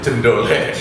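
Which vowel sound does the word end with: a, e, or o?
e. The word ends with an e sound. "Kalau di sini itu jendole. ... bukan jendole"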